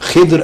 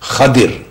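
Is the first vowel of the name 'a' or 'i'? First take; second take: i; a. First: The first vowel is i, then a consonant cluster. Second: The first vowel is a, then i before r. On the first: "خے کے نیچے زیر اور دواد پر جزم" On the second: "خواب پر زبر اور دواد کے نیچے زیر"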